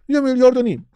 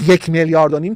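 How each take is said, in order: First: It is said softly with rounded lips, minimized. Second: It is said plainly, with full clear words. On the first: The amount seems like very little money. The speaker calls it right. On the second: The amount seems like a lot of money. The speaker calls it wrong.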